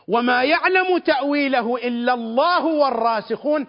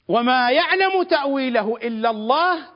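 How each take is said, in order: First: The phrase runs on after Allah without stopping. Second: The phrase comes to a full stop after Allah. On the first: Those firm in knowledge also know its interpretation. "الواو حرف عطف، والراسخون معطوفون على الله" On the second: Only God knows its interpretation. "تنتهي الجملة"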